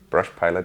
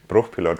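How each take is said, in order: First: The name is said with English sounds. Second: The name is said with German sounds. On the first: "as you pronounce it" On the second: "as German as it gets"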